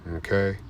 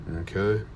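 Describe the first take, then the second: The two takes are said the same way.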